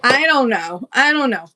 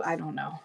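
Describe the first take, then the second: First: Said out loud with a shrug; louder. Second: Muttered low under her breath; quiet mumble. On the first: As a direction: declare it louder, exasperated. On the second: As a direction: mumble it softly to yourself. Repeating a shrug to herself. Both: Real, not acted.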